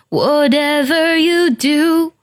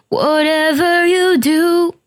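Both takes have the same delivery.

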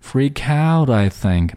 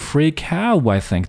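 First: The t in 'out' is a quick tongue flap. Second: The t in 'out' is dropped completely. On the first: "flap t 的这种读法，舌尖弹动的读法" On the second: "直接把两个音把这个 t 省略了"

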